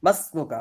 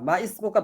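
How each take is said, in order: First: The words run together without the 'i' vowel. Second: The words are separate with the 'i' vowel. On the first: The speaker calls it right. "এজন্য মিলিয়ে পড়তে হবে আগের সাথে।" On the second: The speaker calls it wrong. "বলবেন না।"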